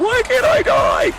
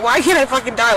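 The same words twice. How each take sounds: First: Very high, loud, drawn-out cry; retold desperate wail. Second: Raised, louder cry of frustration; retold desperate plea. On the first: Retelling her despair at surviving, anguished wail. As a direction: wail it slowly at full pitch. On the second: Retelling her suicide attempt, exasperated plea. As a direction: demand it in exasperation, voice lifted. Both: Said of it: "I was literally like".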